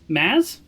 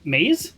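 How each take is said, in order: First: "Maz" with a short a; alternative pronunciation. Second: "Maze" with a long ay; alternative pronunciation. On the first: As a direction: say "Maz" to rhyme with jazz, questioning. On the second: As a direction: say "Maze" to rhyme with days, questioning. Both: Shown as a demonstration. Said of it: "I can say whatever I want".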